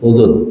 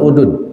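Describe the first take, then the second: First: The middle consonant is a dh sound. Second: The middle consonant is a plain d. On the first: The speaker calls it right. "Udhun. Bukan udun" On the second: The speaker calls it wrong. "Bukan udun"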